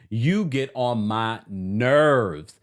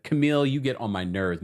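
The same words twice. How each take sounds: First: "you get on my nerves" stretched out very slowly; drawn-out exasperation, stress on "you"; slow exasperated drawl. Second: Said in the usual way. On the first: Real, not acted. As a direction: drag every word out in exasperation. Scolds the character, then repeats.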